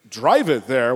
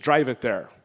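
First: Loud, incredulous echo of a suggestion; retold annoyed disbelief; indignant echo. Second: Said in the usual way. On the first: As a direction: throw it back louder, aggravated. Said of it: "I got a little aggro".

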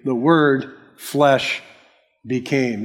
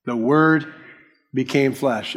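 First: "flesh" drawn out slowly, then a pause before "became"; stress on flesh. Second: Said in the usual way. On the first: Shown as a demonstration. Preacher shows the Greek word order, stress on "flesh". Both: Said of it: "The emphasis is on the flesh".

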